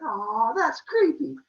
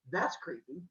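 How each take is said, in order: First: High, loud, drawn-out "aw"; cutesy creeped-out reaction. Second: Soft, understated verdict; deadpan reaction. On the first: She answers Zeus's creepy compliment, high cutesy voice. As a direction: coo it high, as if flattered. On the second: She answers Zeus's chair offer, quiet deadpan. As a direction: say it quietly, unimpressed. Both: Retold or imitated.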